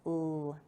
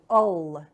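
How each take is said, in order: First: The L sound is said alone, no vowel. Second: A vowel sound is added to the L. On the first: The speaker calls it right. "but L" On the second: The speaker calls it wrong. "make sure that you're not going ol"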